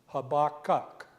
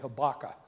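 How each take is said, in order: First: The whole word is said in full. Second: The last part of the word is dropped. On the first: "is the way you're supposed to pronounce that" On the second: "since I'm from Texas, I'm just going to say Habakkuk and leave the last part off"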